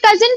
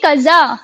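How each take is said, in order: First: The word ends with a clear n sound. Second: The word ends without any n sound. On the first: This is the English pronunciation. "English में तो इसे कजिन पढ़ेंगे" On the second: This is the French pronunciation. "एन silent हो जाता है, तो इसे हम पढ़ेंगे कजा"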